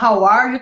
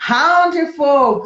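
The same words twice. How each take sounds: First: Said in the usual way. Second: How de fogo said slow and slurred, regional English; regional drawl. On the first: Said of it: "ao invés de falar". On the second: Shown as a demonstration. Teacher showing a regional English accent, slow and slurred. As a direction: slur how are you into how de fogo. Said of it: "Tem lugar que fala".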